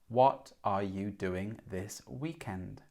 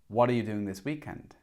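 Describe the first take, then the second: First: The sentence is spoken slowly and carefully. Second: The sentence is spoken quickly and connected. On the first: "Maybe when you speak uh, or read, you speak like this" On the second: "native English speakers speak a lot faster"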